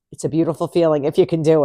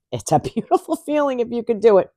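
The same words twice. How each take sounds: First: Said in the usual way. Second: Beautiful feeling through a laugh; amused repeat. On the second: Real, not acted. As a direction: chuckle through it.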